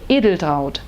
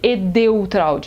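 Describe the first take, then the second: First: It is pronounced with a German accent. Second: It is pronounced with a Brazilian Portuguese accent. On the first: The speaker calls it right. "na Alemanha é Edeltraud" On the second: The speaker calls it wrong. "os nossos amigos nos chamavam ela de Edeltraud, nada disso"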